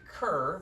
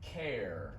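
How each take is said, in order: First: The vowel is an 'er' sound. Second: The vowel is an 'air' sound. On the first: The speaker calls it wrong. "You're, you're making cur, which is hard R sound" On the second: The speaker calls it right. "this sound is like air"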